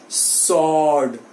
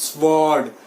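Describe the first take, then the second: First: "sword" as a drawn-out SORD; silent w. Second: "sword" as SVORD, slowly; wrong sword. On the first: Teacher models it for students, w silent. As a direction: drop the w from "sword". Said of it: "W is silent". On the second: Teacher shows what it is not, w sounded. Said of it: "it is not sword". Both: Shown as a demonstration.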